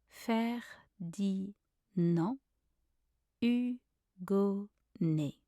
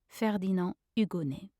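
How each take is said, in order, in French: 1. Le nom est prononcé lentement et traîné. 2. Le nom est prononcé à vitesse normale. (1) "then slowly" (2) "then back at a normal speed"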